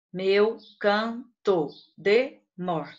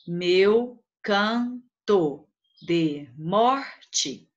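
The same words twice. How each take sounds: First: "meu canto de mor" slowly, one syllable at a time; "meu canto de mor" as five separate beats; counting poetic syllables. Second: "Meu canto de morte" very slowly, a pause after each syllable; "Meu canto de morte" chopped into separate, evenly spaced syllables. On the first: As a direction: stop on the stressed "mor", final syllable dropped. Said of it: "você esquece". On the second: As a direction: split "Meu canto de morte" into meu, can, to, de, mor, te. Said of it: "em sílabas poéticas". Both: Shown as a demonstration.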